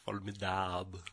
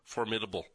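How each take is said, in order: First: The word is pronounced with French sounds. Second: The word is pronounced with English sounds.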